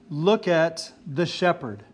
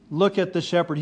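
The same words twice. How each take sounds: First: "Look" leaned on, each word slowed and weighed; slow emphatic quote. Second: Said in the usual way. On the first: Shown as a demonstration. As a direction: set it out slowly as the main point. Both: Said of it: "The main point is".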